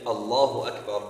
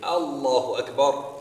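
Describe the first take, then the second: First: The opening of Allahu is short and plain. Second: The opening of Allahu is lengthened. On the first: A statement that Allah is the greatest. The speaker calls it right. "instead of saying Allahu Akbar, Allah is the greatest" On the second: A question asking whether Allah is the greatest. The speaker calls it wrong. "they add a hamza to the very beginning, or they elongate the very beginning"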